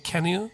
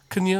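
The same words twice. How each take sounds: First: "can you" as "kya-nyu", full vowel in can; full linked form. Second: "can you" as "kun-yu", weak vowel in can; reduced weak form. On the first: Teacher shows the normal "can you", full and linked. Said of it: "can you、普通に". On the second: Teacher shows the less preferred "can you", reduced to "kun-yu". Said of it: "いうふうな言い方よりも". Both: Shown as a demonstration.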